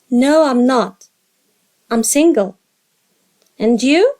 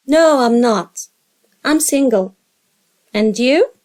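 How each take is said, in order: Both takes have the same delivery.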